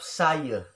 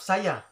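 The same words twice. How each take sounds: First: It is said in a Peninsular Malaysian accent. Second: It is said in a Sabahan accent. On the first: "Kalau di Semenanjung, cakap saya" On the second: "Kalau di Sabah, cakap saya"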